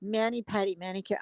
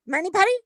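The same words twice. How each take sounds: First: Said in the usual way. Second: Put-on higher Chinese-accented query on "Mani pedi"; mock Chinese accent. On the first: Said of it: "and the other lady goes". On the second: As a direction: ask "Mani pedi" as an imitated Chinese-accented nail tech. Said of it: "she does a perfect Chinese person".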